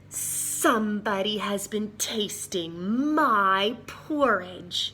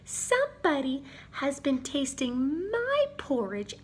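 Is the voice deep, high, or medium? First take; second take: deep; high. First: It is said in a big, growling voice. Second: It is said in a small, piping voice. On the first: The biggest bear is speaking. "she growled in her big voice" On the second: The little bear is speaking. "he piped in his little voice"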